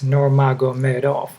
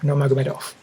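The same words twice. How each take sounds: First: The name is said slowly and deliberately. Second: The name is said very quickly. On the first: "I just slowed it down for you" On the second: "Even faster"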